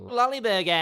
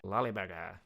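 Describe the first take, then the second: First: High, long-held last syllable; silly exaggeration. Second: Lower, softer repeat; understated silly echo. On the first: Comic announcing the pickle-less burger, silly exaggerated cry. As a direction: blare it out high and stretch BURGER. Plays with silly name, stretched out. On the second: Pretend. Comic echoing own joke name, understated silly repeat. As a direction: say it low and softly, without the long hold.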